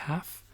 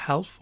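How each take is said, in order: First: "half" as haf, L silent, softer; right pronunciation. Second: "half" with the L sounded, helf; wrong pronunciation. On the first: Teacher correcting, models "half" without L. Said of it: "on dit". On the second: Teacher showing the mistake, sounds the L in "half". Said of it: "on dit pas". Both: Shown as a demonstration.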